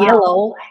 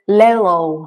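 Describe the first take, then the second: First: The word begins with a Y sound. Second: The word begins with an L sound. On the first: The speaker calls it right. "instead of" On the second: The speaker calls it wrong. "he says"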